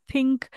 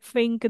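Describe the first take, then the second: First: Said in the usual way. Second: "think" said as "fink"; TH-fronting demo. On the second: Shown as a demonstration. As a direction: swap the th in "think" for f. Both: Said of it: "they drop that T H".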